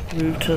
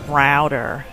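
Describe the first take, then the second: First: Router is said with a non-American pronunciation. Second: Router is said with an American pronunciation. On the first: This is how the speaker says it. "like I call it uh, router" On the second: This is how the other side says it. "they call it router"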